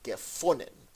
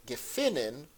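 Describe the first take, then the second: First: "gefunden" with an oo middle vowel, gefunen; Klal pronunciation. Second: "gefunden" with an ee-like middle vowel, gefinen; theater-dialect vowel. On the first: Teacher contrasts the standard dialect for learners, "gefunden" as gefunen. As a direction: say "gefunden" as gefunen, breaking the rhyme. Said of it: "would be pronounced gefunden". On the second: Teacher quotes song lines to show the rhyme, "gefunden" as gefinen. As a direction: say "gefunden" as gefinen, rhyming with gewinnen. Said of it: "rhyme in the theater dialect". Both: Shown as a demonstration.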